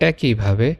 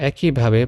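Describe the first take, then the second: The two takes are said the same way.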